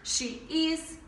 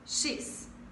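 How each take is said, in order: First: It is said as two full separate words. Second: It is said as one short joined word. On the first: The speaker calls it wrong. "não fala he is, she is" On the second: The speaker calls it right. "A gente junta"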